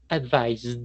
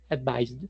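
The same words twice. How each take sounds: First: It is said slowly with an exaggerated final d. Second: It is said quickly with a subtle final d. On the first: "ahí estoy exagerando el gesto" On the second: "si uno lo quiere pronunciar rapidito"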